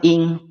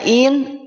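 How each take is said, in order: First: The n is hidden in a nasal sound. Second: The n is pronounced fully and clearly. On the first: "nunnya malu, jadinya samar" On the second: "nunnya jelas"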